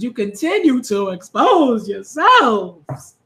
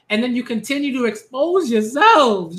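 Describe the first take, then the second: First: "expose yourselves" stretched slowly with big swoops; drawn-out emphasis. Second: Said in the usual way. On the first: Real, not acted. Host scolds readers, "expose yourselves" slowly stretched for emphasis. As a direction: draw out "continue", "expose" and "yourselves".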